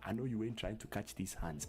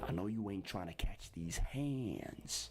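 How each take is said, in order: First: 'Hands' has a non-American A vowel. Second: 'Hands' has the American accent's A vowel.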